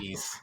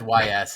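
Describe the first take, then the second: First: It is said as one short word. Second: It is spelled out as two separate letters. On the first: The speaker calls it right. "somebody said it was East" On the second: The speaker calls it wrong. "I always said Y S"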